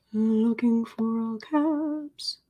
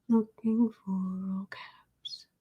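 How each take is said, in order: First: Said in the usual way. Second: Slow whispered murmur while searching. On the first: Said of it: "same words voiced after whisper". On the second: Shown as a demonstration. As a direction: breathe it out softly, unvoiced and slow. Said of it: "muttering search in whisper".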